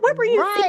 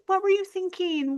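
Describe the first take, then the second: First: It is said in a scolding, accusing tone. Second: It is said in a gentle, caring tone.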